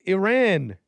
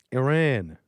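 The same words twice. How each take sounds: First: Loud, high call of the word; yelling. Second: Said in the usual way. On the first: Real, not acted. Streamer yelling the word at his chat, loud and high. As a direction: bark the name out to the room. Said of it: "I'm yelling at you".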